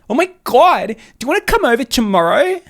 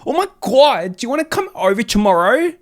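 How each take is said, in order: First: It is said in a higher-pitched voice. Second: It is said in a lower-pitched voice.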